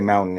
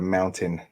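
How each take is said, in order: First: The middle T sound is dropped. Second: The middle T sound is clearly pronounced. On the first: This is how people from Denver say it. "we don't say T's in our words" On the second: This is the standard way to say it. "instead of"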